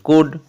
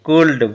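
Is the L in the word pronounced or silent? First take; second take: silent; pronounced. First: The L is silent. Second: The L is pronounced. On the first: The speaker calls it right. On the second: The speaker calls it wrong.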